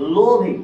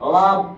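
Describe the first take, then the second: First: The word ends with an extra 'ee' vowel. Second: The word ends on the consonant, no vowel. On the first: The speaker calls it wrong. "লোভি এভাবে বলেন না" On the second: The speaker calls it right. "ইয়ের উচ্চারণ করেন না"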